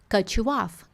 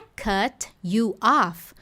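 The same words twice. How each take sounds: First: The words run together, linked into one sound. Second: Each word is said separately, without linking. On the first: "Na hora de conectar" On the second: "Oxente, não é"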